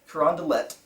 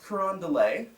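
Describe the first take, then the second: First: The final T is clearly pronounced. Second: The final T is left silent. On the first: The speaker calls it right. "Got to pronounce the T at the end" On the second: The speaker calls it wrong. "not Carondelet"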